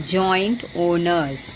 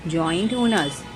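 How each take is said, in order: First: Slow, deliberate recap of the phrase; teacher repeating a phrase slowly for students. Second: Said in the usual way. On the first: Shown as a demonstration. Slowly repeating a collocation for the class. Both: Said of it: "वापस से repeat कर रही हूँ मैं".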